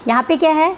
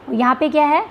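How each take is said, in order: Both takes have the same delivery.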